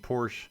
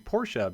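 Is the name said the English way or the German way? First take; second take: English; German. First: It is said in a plain English way. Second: It is said the way it sounds in German. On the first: The speaker calls it wrong. "I've been saying Porsche my whole life until recently" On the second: The speaker calls it right. "it's actually Porsche because it is based on the way the family's name is pronounced in German"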